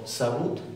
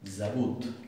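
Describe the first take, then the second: First: It begins with a voiceless, hissing s sound. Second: It begins with a voiced, buzzing z sound. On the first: The speaker calls it wrong. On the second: The speaker calls it right.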